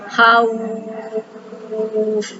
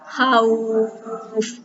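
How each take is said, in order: First: The long vowel is held for six counts. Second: The long vowel is held for four counts.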